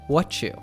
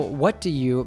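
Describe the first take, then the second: First: Do is dropped; t and you blend into chu. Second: Each word is said fully, including do.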